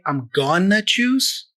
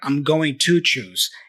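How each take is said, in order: First: 'Going to' is fully reduced to 'gonna'. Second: 'Going to' is said fully and carefully. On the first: "he doesn't say I'm gonna choose" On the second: "nor I'm going to choose"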